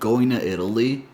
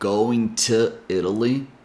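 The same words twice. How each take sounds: First: The t in 'to' sounds like a d. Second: The t in 'to' is a clear t. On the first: "when she said going to Italy" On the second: "She didn't say going to Italy"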